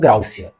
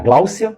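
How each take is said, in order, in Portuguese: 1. O segundo som é um R. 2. O segundo som é um L.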